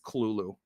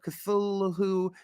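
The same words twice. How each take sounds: First: It is said thick, heavy and guttural. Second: It is said lightly, without a throaty sound. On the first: This is how the name's creator intended it. The speaker calls it right. "but it's just Cthulhu" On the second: This is how most people say the name. The speaker calls it wrong. "people always say Cthulhu"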